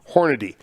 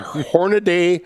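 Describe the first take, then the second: First: The last syllable is said like 'dee'. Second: The last syllable is said like 'day'. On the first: The speaker calls it right. "there is one A in Hornady, and it is not in front of the Y" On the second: The speaker calls it wrong. "I have heard Hornaday so much over the years"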